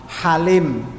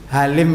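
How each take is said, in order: First: It begins with a harsher, throatier h sound. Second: It begins with a plain, light h sound. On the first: This is the original Arabic form of the name. "aslinya halim" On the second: This is the local Indonesian form of the name. "Karena di Indonesia tidak ada ha, maka jadi ha"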